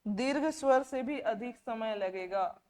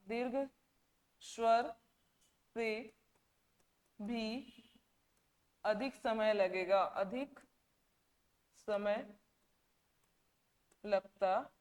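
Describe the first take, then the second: First: Said in the usual way. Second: दीर्घ स्वर से भी अधिक समय spaced with long pauses and softer; slow dictation pace; word by word, slowly. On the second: Shown as a demonstration. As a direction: drop the voice and pause after each word.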